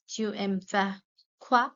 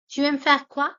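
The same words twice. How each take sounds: First: Emphatic question word at the end; pause before quoi. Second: Higher and louder, "Tu aimes faire quoi?" said in one lively sweep; energetic teacher question; bright model question. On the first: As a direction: set up the pause, then hit "quoi". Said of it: "teacher repeats with pause before quoi". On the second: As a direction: present it eagerly to the class. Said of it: "teacher models question then repeats". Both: Shown as a demonstration.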